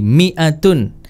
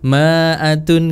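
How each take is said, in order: First: The first syllable is said with an 'i' vowel. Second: The first syllable is said with an 'a' vowel. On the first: The speaker calls it right. "Jadi mi'atun" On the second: The speaker calls it wrong. "kalau tertipu sama harokatnya jadinya ma, ma'atun"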